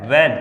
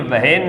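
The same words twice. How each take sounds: First: "when" said short as wen, h silent; a crisp "when", like wen; correct pronunciation. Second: "when" dragged out slowly as wa-hen with a heard h; wrong pronunciation. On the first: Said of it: "ये क्या है?". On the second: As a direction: stretch "when" into wa-hen, h sounded. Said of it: "ये when नहीं है". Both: Shown as a demonstration.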